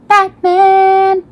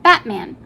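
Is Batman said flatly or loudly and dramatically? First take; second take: dramatically; flatly. First: It is said loudly, as a dramatic exclamation. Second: It is said flatly, in passing. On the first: The speaker calls it right. "There we go. You have to say it that way" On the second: The speaker calls it wrong. "I said that wrong"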